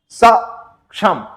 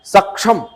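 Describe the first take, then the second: First: सक्षम very slowly, weight on सक; teacher's slow model of सक्षम; slow stressed demo. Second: Said in the usual way. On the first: Shown as a demonstration. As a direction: drag सक्षम out and press the सक. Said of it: "हमेशा हम उच्चारण करें". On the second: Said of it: "तो क्या?".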